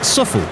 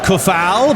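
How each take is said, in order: First: The name begins with an S sound. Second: The name begins with a K sound. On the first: The speaker calls it right. "it's pronounced Suffel. Instead of saying the uh, C, say the S" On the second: The speaker calls it wrong. "Some people would call him Kufal, but no"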